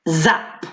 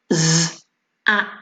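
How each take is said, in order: First: Said in the usual way. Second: "Z-ap-" broken into sounds; Fred talk. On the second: Shown as a demonstration. Teacher doing Fred talk on "Z-ap-" for the children. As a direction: sound out "Z-ap-" slowly. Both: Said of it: "Fred talk".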